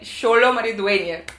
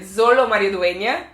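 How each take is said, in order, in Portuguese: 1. O nome começa com som de sh. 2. O nome começa com som de z. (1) "mas é" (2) "às vezes eu quero falar é"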